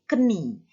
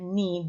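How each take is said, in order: First: The K is sounded before the N. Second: The K is silent; it starts with N. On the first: The speaker calls it wrong. "bukan keni" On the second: The speaker calls it right. "Tapi dibacanya knee, ... Itu silent K"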